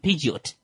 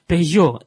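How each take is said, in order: First: A T sound is heard at the end. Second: No T sound is heard at the end. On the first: The speaker calls it wrong. "You can easily be tempted to go with Peugeot" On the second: The speaker calls it right. "if the T is at the end of a word, you don't pronounce it"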